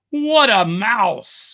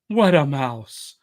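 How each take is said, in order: First: It is said loudly and triumphantly. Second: It is said in a normal, even voice. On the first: "his louder, triumphant voice" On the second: "first in a normal voice"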